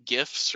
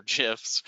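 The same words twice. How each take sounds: First: "gifs" with a hard g, as in "give"; hard-g pronunciation. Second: "gifs" with a soft g, like "jifs"; soft-g pronunciation. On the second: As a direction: open "gifs" on a j sound. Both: Shown as a demonstration. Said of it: "however you pronounce it".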